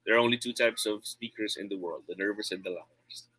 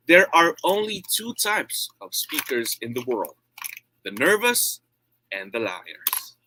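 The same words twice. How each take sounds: First: No variation in tone or volume, as if bored; boring, uninvested reading; monotone. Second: Emphatic public-speaking delivery with a pause before the punchline; varying tone and volume. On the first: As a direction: read it in a dull, even monotone. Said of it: "if I'm gonna read it in monotone". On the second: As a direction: deliver it with conviction and big rises and falls. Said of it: "say it with a varying tone and volume". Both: Shown as a demonstration.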